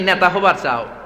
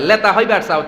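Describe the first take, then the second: First: The first word begins with an n sound. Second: The first word begins with an l sound. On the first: This is the standard way of saying it. "মানে" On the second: This is how people from Pabna say it. "পাবনাতে ন বলে না"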